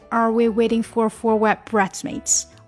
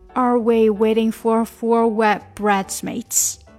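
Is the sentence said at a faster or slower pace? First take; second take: faster; slower. First: The sentence is said at a faster pace. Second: The sentence is said at a slower pace.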